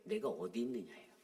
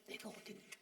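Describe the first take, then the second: First: Said in the usual way. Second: "내가 어디 있느냐" breathed out in a whisper, voiceless. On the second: Shown as a demonstration. 하나님의 부름을 속삭이는 목사, whispered. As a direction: hush it like God calling softly. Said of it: "내가 어디 있느냐"예요".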